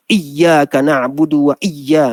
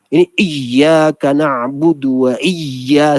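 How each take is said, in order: First: "Iyyaka" pressed too hard; overpressed shadda. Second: Slow, heavy "iyyaka" with the lips pushed; overdone shadda. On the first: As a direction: lean heavily on the doubled y of "Iyyaka". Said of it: "itu tak jadi". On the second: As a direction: exaggerate the doubled y in "iyyaka". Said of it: "tak perlu gitu". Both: Shown as a demonstration.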